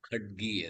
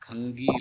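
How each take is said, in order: First: The middle consonant is a 'dg' cluster sound. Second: The middle consonant is a nasal 'ng' sound. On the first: The speaker calls it right. "खड्गी அது" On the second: The speaker calls it wrong. "அது கங்கி இல்ல"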